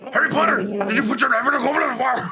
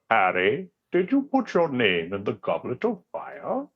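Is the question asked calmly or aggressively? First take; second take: aggressively; calmly. First: It is asked aggressively, almost shouted. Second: It is asked calmly and gently.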